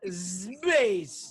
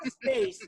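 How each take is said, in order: First: The word ends with a buzzing z sound. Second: The word ends with a hissing s sound. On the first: The speaker calls it wrong. "not space" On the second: The speaker calls it right. "It's space, No Z there"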